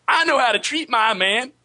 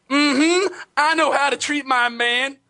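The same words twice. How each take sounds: First: High, sassy put-on Black woman voice; African American accent. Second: High, sassy put-on Black woman voice; hammed-up sassy phone fighter; African American accent. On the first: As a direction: redo the sassy line on request. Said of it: "Can we hear just the last half of that again?". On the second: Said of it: "I do the worst black voice".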